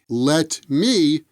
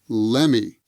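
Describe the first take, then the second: First: The T in 'let' is pronounced. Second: The T drops and it sounds like 'lemmy'.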